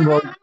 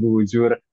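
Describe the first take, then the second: First: The middle consonant is a hard g. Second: The middle consonant is a j sound. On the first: The name keeps its original local pronunciation. The speaker calls it right. "dilafatkannya tetap sesuai dengan lafaz aslinya" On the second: The name is read from its Arabic spelling. The speaker calls it wrong. "G-nya itu ditulis dengan jim, jadinya ditulisnya bujur"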